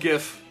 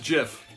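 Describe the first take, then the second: First: The word begins with a hard G sound. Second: The word begins with a soft J sound. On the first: The speaker calls it wrong. "It's not called GIF. I'm not talking about Frank Gifford here" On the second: The speaker calls it right. "It is pronounced GIF. I looked it up"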